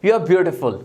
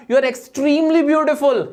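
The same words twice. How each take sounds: First: Said in the usual way. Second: "extremely" drawn out slowly with real emphasis; stress on extremely. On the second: Shown as a demonstration. Teacher showing how to pay a real compliment. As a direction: linger on "extremely beautiful". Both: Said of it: "आपको बोलना पड़ेगा".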